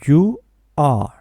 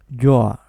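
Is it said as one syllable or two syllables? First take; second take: two; one. First: Two separate syllables, both said strongly. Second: One syllable, with the verb sound weak. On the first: "dos sílabas y las dos sílabas suenan fuerte" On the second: "en la contracción decimos your"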